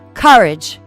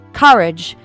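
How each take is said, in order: First: Theatrical, with an open-mouthed first vowel. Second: Theatrical, with an open-mouthed first vowel.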